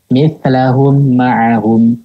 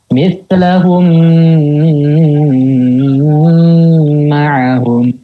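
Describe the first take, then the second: First: The m is plain, with no held nasal hum. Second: The nasal m is held far too long. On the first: "Mimnya dibaca jelas, tidak digunakan. Itu yang keliru" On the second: "Itu kelebihan itu"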